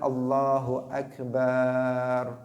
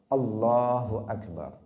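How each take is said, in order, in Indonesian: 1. Vokal terakhir dari akbar dipanjangkan. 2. Vokal terakhir dari akbar dibaca pendek. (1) "tidak boleh dipanjangkan" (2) "itu pendek"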